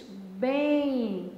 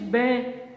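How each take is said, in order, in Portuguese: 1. A palavra termina com uma semivogal nasal, parecida com i. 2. A palavra termina com som de M fechado. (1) "você diz bem" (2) "Você não diz bem"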